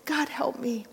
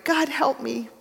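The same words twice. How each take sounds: First: Softer, breathless whispered plea; the ghost whispering the plea as the voice gives out; whispered whimper. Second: Higher, voiced whimpering plea; the ghost whimpering to God, still voiced. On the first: Acted. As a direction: let the prayer fade to a whisper. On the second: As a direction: whimper the prayer aloud. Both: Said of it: "but ended whimpering".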